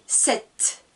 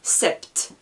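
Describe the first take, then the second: First: "sept" said "sɛt", silent P, only the T heard; correct pronunciation. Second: "sept" with the P sounded, like "sɛpt"; wrong pronunciation. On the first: Teacher models the right French number for students, silent P. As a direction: give "sept" cleanly with no P. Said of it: "j'entends le T". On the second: Teacher shows students the mistake to avoid, P pronounced. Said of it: "Je ne dis pas". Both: Shown as a demonstration.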